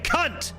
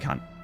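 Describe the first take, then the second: First: It is said in an angry, hostile tone. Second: It is said in a warm, friendly tone.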